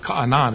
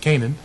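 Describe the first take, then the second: First: Canaan is pronounced the ancient Israelite way. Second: Canaan is pronounced the usual English way. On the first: "is actually how they would pronounce it" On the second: "but for us"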